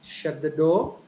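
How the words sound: The voice rises at the end. It is a question. "when it comes to question, the tone gradually raises"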